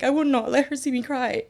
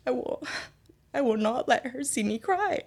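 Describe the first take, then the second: First: High, steadier restated resolve; determined vow. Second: High, halting vow with a catch; holding back tears. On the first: Retold or imitated. Repeating her private vow about mom, determined. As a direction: push it out firmly in one go. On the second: Real, not acted. Telling herself to hide tears from mom, choked up. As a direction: struggle to get the words out. Recalls sobbing, vowing to hide it.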